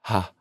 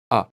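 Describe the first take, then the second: First: The vowel starts with a breathy onset. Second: The vowel starts with a firm, abrupt onset. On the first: The speaker calls it wrong. "That's breathy" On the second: The speaker calls it right. "a nice firm ah"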